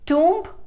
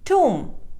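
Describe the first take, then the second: First: The b sound is pronounced. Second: The b sound is silent. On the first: The speaker calls it wrong. "It is mispronounced as tomb" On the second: The speaker calls it right. "The correct pronunciation is tomb. B is silent"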